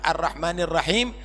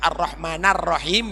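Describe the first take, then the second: First: The vowel before Rahim is an 'i' sound. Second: The vowel before Rahim is an 'a' sound. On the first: The speaker calls it right. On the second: The speaker calls it wrong.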